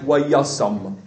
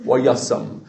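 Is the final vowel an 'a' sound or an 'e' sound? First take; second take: a; a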